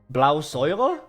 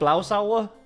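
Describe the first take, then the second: First: The second part has an 'oy' vowel sound. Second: The second part has an 'ow' vowel sound. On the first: "It's very similar to oi" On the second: "Is it just blau sauer?"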